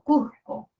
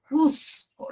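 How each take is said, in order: First: The S sounds like a soft, breathy J. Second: The S sound is pronounced strongly and clearly. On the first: This is how a coastal speaker says it. "el costeño va a decir algo así como" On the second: This is how an Andean speaker says it. "la marca muy bien esa S"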